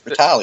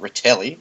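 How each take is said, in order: First: The second vowel sounds like 'a'. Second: The second vowel sounds like 'e'. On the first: The speaker calls it right. "It's an a. It's retali" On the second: The speaker calls it wrong. "there's no e in it, so it's not retelli"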